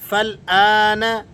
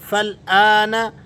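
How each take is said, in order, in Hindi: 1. पहला स्वर छोटा है और l से मिल जाता है। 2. पहला स्वर छोटा है और l से मिल जाता है।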